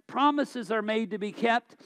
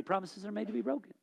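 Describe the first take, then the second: First: "kept" stressed, said firmly as the correction; correcting the saying, firm stress on "kept". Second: Quick, softer throwaway quote of "Promises are made to be broken."; tossed-off quote of a popular saying; mocking the saying. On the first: Shown as a demonstration. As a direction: plant the word "kept" with conviction. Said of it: "No, they're not". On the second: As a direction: rattle off the cliché dismissively. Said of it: "it's become a saying in our society".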